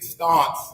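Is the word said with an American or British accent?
British. It is said with a British, London accent.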